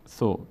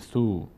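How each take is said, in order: First: The vowel is kept short. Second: The vowel is stretched out long. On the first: The speaker calls it right. "زیاد کش نمیدیم" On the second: The speaker calls it wrong. "نمیگیم ثو"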